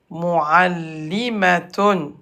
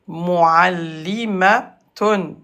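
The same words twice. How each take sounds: No difference in how they are said.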